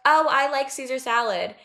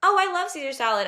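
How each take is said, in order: First: A mildly voiced friend stating a preference; imitating the friend who likes the salad; casual friend quote. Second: Higher, fast, gushing agreement; mocking the people-pleaser friend who echoes everyone; eager people pleaser. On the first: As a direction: toss off the salad opinion lightly. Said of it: "Someone would be like". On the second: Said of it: "And she would say, like".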